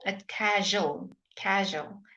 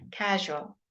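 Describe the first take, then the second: First: Casual said very slowly with a soft voiced zh in the middle; teacher correcting the learner's casual. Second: Casual with a soft voiced zh, falling; teacher repeats the model word. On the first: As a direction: stretch out casual gently. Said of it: "It's not casual, it's casual". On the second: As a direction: say casual slowly and clearly. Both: Shown as a demonstration.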